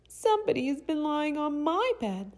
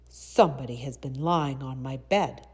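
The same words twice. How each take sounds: First: It is said in a tiny, itty-bitty voice. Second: It is said in a rough, gruff voice.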